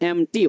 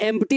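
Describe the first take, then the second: First: The word is said without a p sound. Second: The word is said with a p sound. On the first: The speaker calls it right. "पी क्या हो जाएगा? Silent हो जाएगा" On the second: The speaker calls it wrong. "इसको एम्प्टी नहीं पढ़िएगा"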